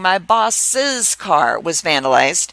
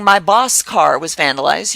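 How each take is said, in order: First: The word before 'car' has two syllables. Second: The word before 'car' has one syllable. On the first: The speaker calls it right. "I'm adding that extra sound" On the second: The speaker calls it wrong. "you're not saying"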